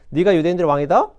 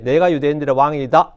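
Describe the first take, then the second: First: The voice rises at the end. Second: The voice falls at the end.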